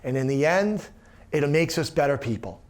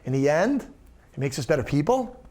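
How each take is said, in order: First: The voice falls to a final close. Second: The voice rises, leaving it unfinished.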